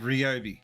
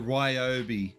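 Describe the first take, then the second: First: The first syllable is not strongly pushed. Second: The first syllable is strongly pushed and stressed. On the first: This is how Australians say it. "in Australia, we say Ryobi" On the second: This is how Americans say it. "They go Ryobi. They, they really push the whole Rye"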